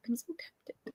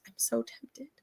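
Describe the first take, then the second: First: A soft, breathy whisper of "tempted"; hushed aside. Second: Said in the usual way. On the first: Shown as a demonstration. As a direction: whisper it like a secret confession. Whispers it the second time.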